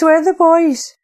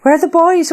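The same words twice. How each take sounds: First: High, loud, frantic call repeated; panicked cry. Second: Put-on high, loud, frantic call for the missing boys; panicked cry. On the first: Acted. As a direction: cry it again, desperate. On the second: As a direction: shout it out in sheer panic. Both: Frantic search for her brothers.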